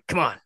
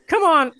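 First: It is said in an imitation of Rick. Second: It is said in an imitation of Morty. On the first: "I've never tried Rick, but let's see what we can do here" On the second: "Let's say some stuff in Morty"

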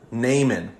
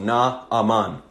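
First: The name is said with two syllables. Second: The name is said with three syllables. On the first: This is the usual English way to say the name. "that's typically how English speakers will say his name" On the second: This follows the Hebrew form of the name. "it would be three syllables"

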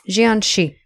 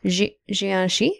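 First: The word is said firmly, like a statement. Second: The word is said hesitantly, like a question. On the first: The speaker is sure of the pronunciation. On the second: The speaker doubts the pronunciation.

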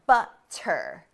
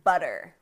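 First: The middle consonant is a clear T sound. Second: The middle consonant is a soft D sound. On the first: "we do not say water or waiter or butter" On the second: "and butter"

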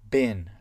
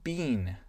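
First: It is said with an American accent. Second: It is said with a British accent.

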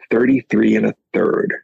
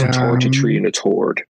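First: The th sounds are pronounced as th. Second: The th sounds are pronounced as t.

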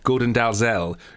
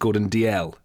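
First: The surname is said with a z sound. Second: The surname is said without a z sound. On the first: The speaker calls it wrong. "I got hauled over the coals this week for pronouncing Gordon Dalzell" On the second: The speaker calls it right. "the correct pronunciation is Gordon DL"

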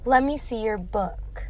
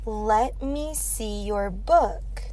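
First: "Let me" is blended into one word. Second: "Let me" is said as two separate words.

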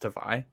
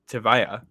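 First: The name ends with an 'eye' sound. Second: The name ends with an 'eye-ya' sound. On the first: The speaker calls it wrong. "it's not pronounced Tavai" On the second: The speaker calls it right. "It's Tavaya"

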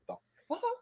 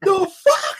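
First: It sounds perplexed and confused. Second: It sounds excited and happily surprised.

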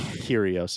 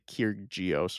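First: The name is said without a G sound. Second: The name is said with a G sound. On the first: The speaker calls it right. "you would just say like Kyrgios is fine. Do not say the G" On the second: The speaker calls it wrong. "Do not say Kyrgios or whatever"

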